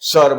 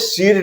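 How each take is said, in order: First: The vowel sounds like 'uh' or 'er'. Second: The vowel sounds like long 'ee'. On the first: The speaker calls it right. "उसको हमने सर बोला है" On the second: The speaker calls it wrong. "उसको हमने सीर नहीं बोला है"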